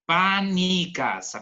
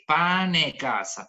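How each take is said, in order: First: It is said in the Cosenza dialect. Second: It is said in the Catanzaro dialect.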